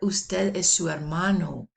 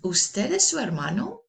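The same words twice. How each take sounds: First: The voice falls at the end. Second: The voice rises at the end. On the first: It states a fact. "That's a statement" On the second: It asks a yes-no question. "As a question, Hear how my voice goes up at the end"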